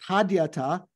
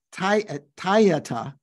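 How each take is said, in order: First: "Tadyata" as tahd-ya-ta, d sounded; full d pronunciation. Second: "Tayata" slowly as tie-ya-ta, no d; Tibetan pronunciation. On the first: Teacher giving the written form of the mantra word, d sounded. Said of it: "So here". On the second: Teacher showing how Tibetans would say it, Tibetan pronunciation. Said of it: "the Tibetans would say". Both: Shown as a demonstration.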